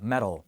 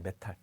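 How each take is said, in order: First: The middle t is a soft, rolled flap. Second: The middle t is a crisp, full t. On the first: The speaker calls it right. "좀 굴리시는 부분이 들어가기 때문에" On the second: The speaker calls it wrong. "메탈이라고는 잘 안 하거든요"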